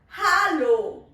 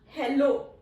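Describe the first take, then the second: First: It is pronounced like the German greeting. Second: It is pronounced like the English greeting. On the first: The speaker calls it right. "Rather, hello. ... this is how we say hello in German language" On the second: The speaker calls it wrong. "It's not hello"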